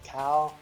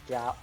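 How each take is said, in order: First: The name begins with a K sound. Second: The name begins with a G sound. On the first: This is an Americanized way of saying the name. "if you want to do like American-ish uh, pronunciation" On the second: This is the original way of saying the name. "the correct way to say is gal, uh, uh, gal with a G"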